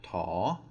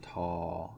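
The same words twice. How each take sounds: First: The pitch rises across the syllable. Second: The pitch stays low across the syllable. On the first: "then we would have a rising tone" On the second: "it becomes a low tone"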